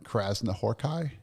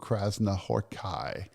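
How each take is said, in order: First: The name is said quickly and smoothly. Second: The name is said slowly and carefully. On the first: The speaker calls it right. "it's faster than that" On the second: The speaker calls it wrong. "I think I'm messing that name up"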